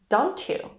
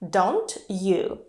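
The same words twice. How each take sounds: First: The t and y merge into a ch sound. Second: The t and y are kept separate.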